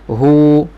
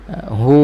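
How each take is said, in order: The two takes are said the same way.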